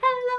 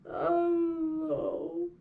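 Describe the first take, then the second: First: It is said in a happy voice. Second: It is said in a sad voice.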